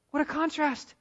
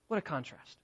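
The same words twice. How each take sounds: First: Lifted high in amazement; higher, marvelling. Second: Dropped soft, almost under the breath; hushed. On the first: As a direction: raise it up in wonder. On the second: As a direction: let it sink quietly. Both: Shown as a demonstration.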